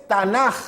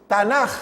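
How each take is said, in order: Both takes have the same delivery.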